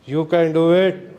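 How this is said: It is said in a sad tone.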